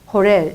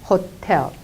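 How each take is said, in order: First: The middle t becomes a soft flap. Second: The middle t is a crisp t sound. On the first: The speaker calls it wrong. "리얼 발음으로 해가지고 호렐 호렐 이렇게 하면 안 된다는" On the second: The speaker calls it right. "호텔 이렇게 발음을 해야 된다는 겁니다"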